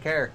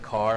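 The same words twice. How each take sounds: First: It is said in a put-on Canadian accent. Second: It is said in a plain American accent. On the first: "I say certain things with like a Canadian accent" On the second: "instead of car"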